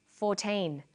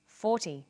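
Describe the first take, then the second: First: Put-on FOURTEEN with a long teen and clear final N; minimal-pair demo. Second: FORTY with a short, falling -ty; minimal-pair demo. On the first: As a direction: say FOURTEEN carefully, holding the teen. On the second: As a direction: say FORTY carefully, first syllable strong. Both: Shown as a demonstration. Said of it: "Listen to these pairs of numbers".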